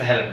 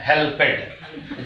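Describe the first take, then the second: First: The ending is joined without an extra syllable. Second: The ending is said as an extra syllable. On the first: The speaker calls it right. "It's हेल्प्ड" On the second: The speaker calls it wrong. "Local level पे लोग हेल्प को हेल्पेड बोल देते हैं"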